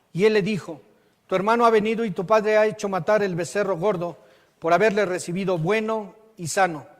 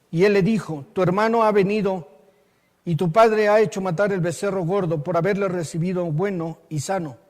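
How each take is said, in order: Both takes have the same delivery.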